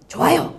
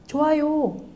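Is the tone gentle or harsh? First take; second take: harsh; gentle. First: It is said in a harsh, rough tone. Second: It is said in a gentle, soft tone. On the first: "좋아요를 거칠게 말했어요" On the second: "부드러운 억양으로 말"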